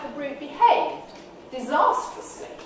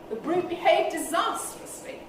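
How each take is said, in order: First: It is split into two separate phrases. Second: It is one phrase with the main stress at the end. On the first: The meaning becomes a bit ambiguous. "you could change the tonality" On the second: His behaviour was unspeakably bad. "If I revert to end focus"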